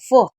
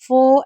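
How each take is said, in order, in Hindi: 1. यह अक्षर बहुत जल्दी और छोटा बोला जाता है। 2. यह अक्षर धीरे और खींचकर बोला जाता है। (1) "एकदम जल्दी बोला जाता है, फो ऐसे" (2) "फो ऐसे नहीं पढ़ा जाता"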